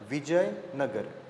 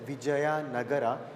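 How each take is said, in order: First: The final vowel is dropped, ending in a consonant. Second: Every written vowel is sounded, ending in a vowel. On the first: The speaker calls it right. "It has to be pronounced as Vijayanagar" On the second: The speaker calls it wrong. "It is not to be pronounced as Vijaya Nagara"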